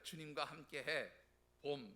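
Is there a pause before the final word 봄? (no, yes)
yes. There is a break before the final word 봄. Spring together with the Lord. The speaker calls it right. "이렇게 읽으셔야 됩니다"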